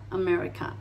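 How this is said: It is said with English vowels and a soft R. The speaker calls it right. "La A final también suavecita"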